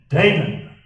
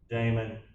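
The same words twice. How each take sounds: First: The name is called in a stern mom voice. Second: The name is called in a casual, relaxed way.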